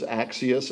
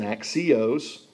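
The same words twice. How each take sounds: First: Axios as AK-see-us, short weak ending; first word pronunciation. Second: Axios as ak-see-OSE, long o ending; second word pronunciation. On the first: Preacher naming the first of two words, AK-see-us pronunciation. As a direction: say axios with an unstressed "us" at the end. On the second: Preacher naming the second of two words, ak-see-OSE pronunciation. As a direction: say axios with a full "ose" last syllable. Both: Shown as a demonstration. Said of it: "those two words".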